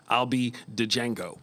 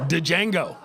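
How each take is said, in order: First: Django with a hard spoken D, "D-jango"; loud D in Django. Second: Django with the D said out loud. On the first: Comic mocking costume play, loud D in Django. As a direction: say Django with the D sounded, slowly. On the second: Comic joking about costumes, sounding the D in Django. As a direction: land the D of Django hard. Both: Shown as a demonstration. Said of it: "Can't keep the D silent".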